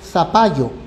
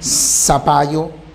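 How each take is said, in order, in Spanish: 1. El primer sonido se hace con la lengua entre los dientes. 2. El primer sonido es una s silbante simple. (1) "Nosotros no producimos el sonido interdental. Nadie dice" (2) "como si fuera con S"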